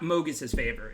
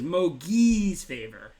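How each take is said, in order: First: The first word is said as Mogus's. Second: The first word is said as Mogi's. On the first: The speaker calls it wrong. "It is not Mogus's Favor" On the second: The speaker calls it right. "It is Mogi's Favor"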